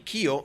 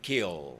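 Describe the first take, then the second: First: The word ends in an O-like vowel. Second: The word ends in a curled-tongue L. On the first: "you confuse with an O. I didn't say kio" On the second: "I said kill"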